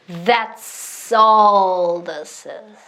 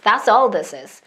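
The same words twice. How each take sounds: First: The phrase is said slowly but still connected. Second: The phrase is said at normal speed.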